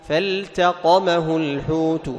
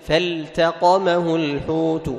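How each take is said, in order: The two takes are said the same way.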